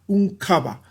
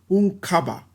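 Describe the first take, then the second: The two takes are said the same way.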